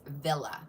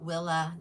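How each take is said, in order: First: The name begins with a V sound. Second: The name begins with a W sound. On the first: The speaker calls it right. "it is pronounced Villa" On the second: The speaker calls it wrong. "not Willa"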